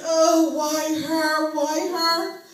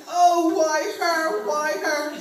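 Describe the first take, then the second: First: Loud, slow mourning wail; mock wailing. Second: Loud, slow wail with a higher pitch; copycat wailing. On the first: Mourners at the casket, loud slow wailing. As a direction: drag out the funeral wail. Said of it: "they yelled and screamed". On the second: Retold or imitated. Cousin at a stranger's funeral, copying the loud wail. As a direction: copy the mourners' wail, stretched out. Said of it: "I was screaming".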